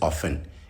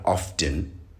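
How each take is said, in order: First: The T sound is silent. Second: The T sound is pronounced. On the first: The speaker calls it right. "The T is silent" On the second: The speaker calls it wrong. "You don't pronounce the T in often"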